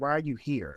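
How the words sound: The line sounds cold, flat and distant. The character seems uninterested, with no allure. The speaker calls it wrong. "She just feels distant"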